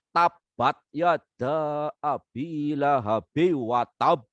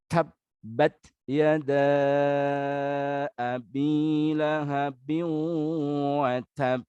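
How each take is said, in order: First: It is recited with a Banyumasan Javanese accent. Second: It is recited with standard Arabic articulation. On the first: The speaker calls it wrong. "menggunakan aksen Banyumasan" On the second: The speaker calls it right. "menggunakan makhraj yang betul"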